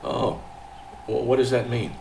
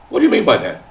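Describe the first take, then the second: First: It is said in a calm, level voice. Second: It is said in a loud, raised voice.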